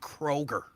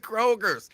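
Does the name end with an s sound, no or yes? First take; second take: no; yes. First: The name ends without any s sound. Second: The name ends with an added s sound. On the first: The speaker calls it right. "There's no S on Kroger" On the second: The speaker calls it wrong. "It's not Kroger's. There's no S on Kroger"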